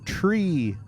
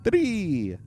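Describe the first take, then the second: First: The word begins with a plain t sound. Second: The word begins with a th sound. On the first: The speaker calls it wrong. "I keep saying tree" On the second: The speaker calls it right. "Maybe I should say it like that"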